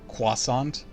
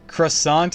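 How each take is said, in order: First: It is said with a kw-like opening sound. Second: It is said the common English way. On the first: The speaker calls it right. "It's supposed to be pronounced like a Q-ish sound" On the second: The speaker calls it wrong. "just the way that a lot of people mispronounce it"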